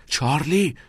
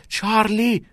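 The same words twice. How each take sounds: First: Higher-pitched calling of the name; raised but unshouted exclamation; sharp call. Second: Very high yell of the name; high-pitched shouted call; alarmed shout. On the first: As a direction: check a friend by calling his name. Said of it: "ناکس گفت". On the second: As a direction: cry out to stop a friend. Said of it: "ناکس داد زد". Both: A narrator's reading.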